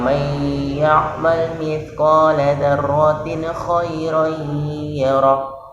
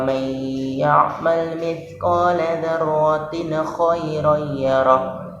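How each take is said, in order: First: The nasal sound is held for two beats. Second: The nasal sound is rushed and left out. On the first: The speaker calls it right. "jadi ada dengung dulu satu alif atau dua harokat" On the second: The speaker calls it wrong. "Jangan cepat-cepat. ... Nah, dengungnya mana?"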